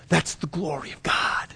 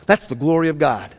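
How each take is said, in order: First: Soft, breath-only whisper; hushed awe. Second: Said in the usual way. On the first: Real, not acted. Preacher closing on caring for the least, whispered. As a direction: drop to a reverent whisper.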